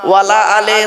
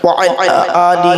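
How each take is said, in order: First: The words are run together into one. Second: Each word is said separately and clearly. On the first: The speaker calls it wrong. "আমরা দরুদ শরীফ পড়ি কিরকম দেখবেন" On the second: The speaker calls it right. "কেটে কেটে বললাম"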